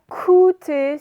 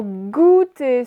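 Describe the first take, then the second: First: Coûter drawn out and loud with initial K; coûter as the contrasting wrong word, K first; K instead of G. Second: Goûter drawn out, louder, with voiced G; goûter slowly enunciated for dictation, G first; hard G sound. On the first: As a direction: stress the unvoiced K opening coûter. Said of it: "ce n'est pas coûter". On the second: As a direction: hit the hard G opening goûter. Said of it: "c'est g, g, g". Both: Shown as a demonstration.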